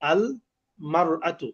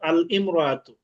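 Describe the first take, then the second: First: The article is followed by a 'mar' syllable. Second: The article is followed by an 'im' syllable. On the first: The speaker calls it right. "তখন উচ্চারণ হয় আল মারআতু" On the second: The speaker calls it wrong. "আমি এই মাত্র এই যে শব্দের দাগ দিলাম"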